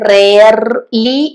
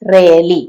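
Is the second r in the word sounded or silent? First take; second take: sounded; silent. First: The r before the l is pronounced. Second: The r before the l is left silent. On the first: The speaker calls it wrong. "പക്ഷെ അവിടെ റേർലി എന്ന് പറയണ്ട" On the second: The speaker calls it right. "ആ രണ്ടാമത്തെ ആറില്ലേ, അത് നമ്മൾ ഉച്ചരിക്കണ്ട. റേലി എന്ന് പറഞ്ഞാൽ മതി"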